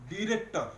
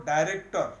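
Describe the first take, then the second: First: ଡିରେକ୍ଟର said with a short "di" first syllable; ଡିରେକ୍ଟର with a short "di", like "dip"; director as di-rector. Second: ଡାଇରେକ୍ଟର said with a long "dai" first syllable; ଡାଇରେକ୍ଟର with "dai", like "die"; director as dai-rector. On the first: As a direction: say ଡିରେକ୍ଟର as "di-rek-tor", short i at the start. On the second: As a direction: say ଡାଇରେକ୍ଟର as "dai-rek-tor", first syllable stressed and louder. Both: Shown as a demonstration. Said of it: "କିଛି ଜଣ କହନ୍ତି ଡିରେକ୍ଟର".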